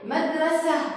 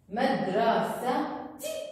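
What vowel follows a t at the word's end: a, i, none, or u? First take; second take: none; i. First: The word ends in a plain vowel, no t sound. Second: The word ends with a t and short i. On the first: "بدون حركة مدرسة" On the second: "بدي أكتب حركة الكسرة"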